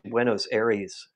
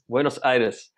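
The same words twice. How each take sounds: First: The name has an English-style pronunciation. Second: The name has a Spanish-style pronunciation. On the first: The speaker calls it wrong. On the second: The speaker calls it right.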